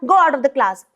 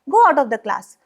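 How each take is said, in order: First: It is said in an aggressive, rude tone. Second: It is said in a light, low, calm tone.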